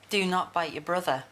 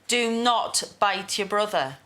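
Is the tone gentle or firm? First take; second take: gentle; firm. First: It is said gently and softly. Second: It is said firmly and sternly.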